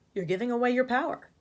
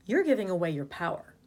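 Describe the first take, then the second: First: "power" lifted at the end like a question; rising tune up to "power"; upspeak. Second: Said in the usual way. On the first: Shown as a demonstration. Refrain said in the upspeak demonstrated.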